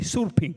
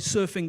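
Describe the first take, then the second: First: It is said Indonesian-style with a P sound. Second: It is said plainly with an F sound.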